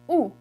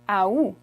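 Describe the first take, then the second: First: It is said as plain 'ou' only. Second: It begins with an audible A sound. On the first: "the way I say it ... Just août" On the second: "instead of making the A at the beginning silent, they actually pronounce it"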